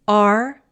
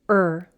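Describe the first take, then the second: First: The vowel is a full sound before r. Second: The vowel is reduced to er.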